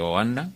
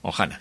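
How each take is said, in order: First: The second syllable starts with no consonant. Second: The second syllable starts with a breathy h sound. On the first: The speaker calls it wrong. "lo pronuncié mal" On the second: The speaker calls it right. "que es Ojana"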